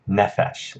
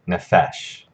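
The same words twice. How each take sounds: First: The stress is on the first syllable. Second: The stress is on the second syllable. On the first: The speaker calls it right. "has the accent on the first syllable" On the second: The speaker calls it wrong. "instead of"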